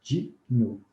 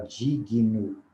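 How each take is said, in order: First: "digno" in two syllables, díg-no; no vowel after the g in "digno"; correct pronunciation. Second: "digno" with an added vowel, dí-gui-no; wrong pronunciation. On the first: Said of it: "Não é difícil falar". ("digno" em duas sílabas, sem i) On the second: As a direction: say "digno" slowly with an extra i after the g. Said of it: "acabamos por falar digno". ("digno" com i intrometido, devagar) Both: Shown as a demonstration.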